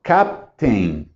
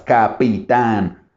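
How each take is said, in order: First: Captain as CAP-tin, falling; Captain with no middle vowel, pitch dropping; two English syllables. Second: Capitán slowly as ca-pi-tán; Capitán stretched over three syllables; three Spanish syllables. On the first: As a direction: break Captain into just two beats, lower. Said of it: "En inglés solo son dos". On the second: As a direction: spell out Capitán beat by beat. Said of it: "En español sí hay tres sílabas". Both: Shown as a demonstration.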